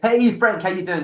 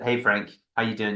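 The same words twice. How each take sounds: First: It is said with lively, high energy. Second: It is said with flat, low energy.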